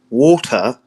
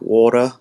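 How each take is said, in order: First: The word is said in a British accent. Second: The word is said in an Australian accent. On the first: "British people are like water" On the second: "Australians are like water"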